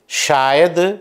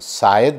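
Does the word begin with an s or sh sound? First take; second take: sh; s. First: The word begins with a sh sound. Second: The word begins with a plain s sound. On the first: The speaker calls it right. "वास्तविक उच्चारण है" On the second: The speaker calls it wrong. "शा के स्थान पर सा"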